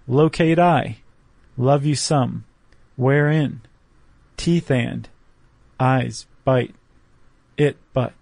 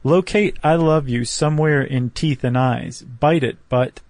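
First: A pause follows nearly every short fragment. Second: The lines are read straight through without breaks. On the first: "leaving a beat after just about every line" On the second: "So if you just read it like that"

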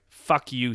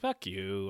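First: It is said with sincere, cutting contempt. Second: It is said casually, as a light dismissal. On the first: The other person matters very little to the speaker. "he's 100% sincere about it" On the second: The speaker is brushing the other person off lightly. "it means more like, shut up, or, what are you talking about?"

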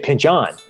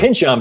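First: The stress is on the last syllable. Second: The stress is on the first syllable. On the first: This sounds like the author's name, a little French. The speaker calls it wrong. "you accent the end of my name incorrectly" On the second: This is how the name is actually pronounced. The speaker calls it right. "it's Pynchon"

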